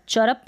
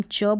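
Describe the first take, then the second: First: "चरप" as two syllables, r sounded; full-r mispronunciation. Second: "चर्प" as one syllable, "chuhp"; half-r pronunciation. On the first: Teacher warning learners off it, "चरप" with full r. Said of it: "चरप नहीं बोलेंगे हम". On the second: Teacher modelling the correct reading, "चर्प" with half r. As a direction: let the r in "चर्प" nearly vanish. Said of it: "चर्प बोलेंगे". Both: Shown as a demonstration.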